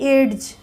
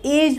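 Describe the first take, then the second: First: A separate d sound is heard. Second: No separate d sound is heard. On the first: The speaker calls it wrong. "ना कि एड्स" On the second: The speaker calls it right. "एज बोलेंगे"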